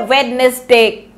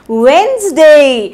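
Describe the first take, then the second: First: वेडनेसडे with every letter sounded, wed-nes-day; wrong pronunciation. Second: वेडनेसडे said wenz-day, d silent; correct pronunciation. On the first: Teacher showing the common wrong वेडनेसडे. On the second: Teacher giving the right वेडनेसडे after the wrong one. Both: Shown as a demonstration. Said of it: "गलत".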